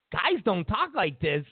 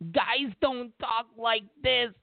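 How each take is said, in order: First: Said in the usual way. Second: Slow, drawn-out mock denial; imitating a denial, slowly and derisively; mocking quote. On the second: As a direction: stretch it out to ridicule whoever said it. Mocking others' denial, first slow take.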